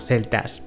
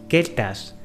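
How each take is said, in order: First: The word begins with a soft TH sound. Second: The word begins with a hard K sound. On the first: "debido a la cetización de la C, los pronunciamos como celtas" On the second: "tendríamos que pronunciarlo como keltas"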